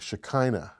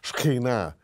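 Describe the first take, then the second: First: The middle consonant is a plain English k. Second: The middle consonant is rasped from the throat. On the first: "in English, you know, we we see it this way" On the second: "You kind of got to speak it from your throat"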